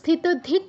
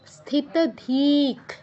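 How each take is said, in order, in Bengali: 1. 'dhi' স্বরটি হ্রস্ব, শেষে k। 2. 'dhi' স্বরটি দীর্ঘ, শেষে বিসর্গ। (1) "আমরা কিন্তু স্থিতধিক বলবো না" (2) "ধীতে দীর্ঘ করে তারপর বিসর্গর উচ্চারণ"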